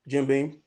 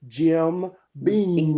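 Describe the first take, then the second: First: The second word ends sounding like an n. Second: The second word ends with a clear m. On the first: The speaker calls it wrong. "I say Jim Beam, Jim Beam, because I'm country, but and it sounds like Jim Bean" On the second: The speaker calls it right. "but it is Jim Beam"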